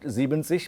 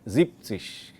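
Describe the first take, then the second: First: The first part keeps its full 'sieben' ending. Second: The first part drops the 'en' sound. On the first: The speaker calls it wrong. "not siebzig" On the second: The speaker calls it right. "but siebzig"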